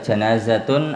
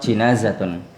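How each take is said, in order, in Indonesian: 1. Suku kata pertama vokalnya 'a'. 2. Suku kata pertama vokalnya 'i'. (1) "bifathil jim" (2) "au kasriha"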